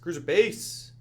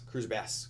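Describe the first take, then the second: First: The last word has a long 'ay' vowel. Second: The last word has a short 'a' vowel. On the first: The speaker calls it right. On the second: The speaker calls it wrong.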